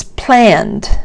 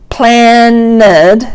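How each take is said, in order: First: "planned" as one long beat, falling; one-syllable pronunciation. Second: "planned" stretched into two beats, plan-ned; wrong two-syllable pronunciation. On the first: Teacher correcting the mistake, one-beat "planned". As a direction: keep "planned" to a single drawn-out syllable. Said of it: "still only one beat". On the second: Teacher showing learners the mistake, two-syllable "planned". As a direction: add an extra syllable to "planned", rising. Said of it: "but it's not". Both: Shown as a demonstration.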